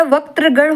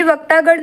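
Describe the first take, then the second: First: Said in the usual way. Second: वक्तागण with -taa in the middle; long aa, no r in वक्तागण; wrong form. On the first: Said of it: "वक्त्रगण होता है". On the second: Shown as a demonstration. Teacher rejects a misspelling, वक्तागण with long middle aa. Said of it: "वक्तागण नहीं होता".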